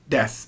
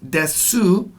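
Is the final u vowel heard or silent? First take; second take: silent; heard. First: The final u vowel is dropped and silent. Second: The final u vowel is clearly pronounced. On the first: The speaker calls it right. "just say your name, des" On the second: The speaker calls it wrong. "it looks like it's pronounced desu"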